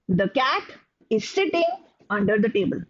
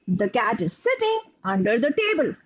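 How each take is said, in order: First: Pauses split it into a few short groups. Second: It is read in one or two long groups. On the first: "there can be some who make groups out of it" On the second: "experts who make larger chunks and they read like this"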